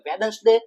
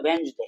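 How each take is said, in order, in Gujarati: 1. મધ્યમાં d અવાજ બોલાય છે. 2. મધ્યમાં d અવાજ સાયલન્ટ રહે છે. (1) "ખાસ મહત્વની ભૂલ જે વિદ્યાર્થી મિત્રો કરે છે" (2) "ઉચ્ચાર થશે વેન્સડે"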